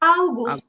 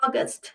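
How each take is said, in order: First: It begins with 'ow', German style. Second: It begins with 'aw', English style. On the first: "অগাস্টকে ওরা বলে আউগুস্ট" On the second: "ইংলিশে কিন্তু আমরা বলি অগাস্ট"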